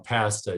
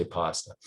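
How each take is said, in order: First: Pasta said with a flat a, as in cat; pasta, first vowel like cat; Canadian pasta. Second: Pasta said with a broad ah, as in father; pasta, first vowel like father. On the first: Real, not acted. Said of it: "hear my Canadian accent coming out". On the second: Shown as a demonstration. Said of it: "'cause I don't say pasta".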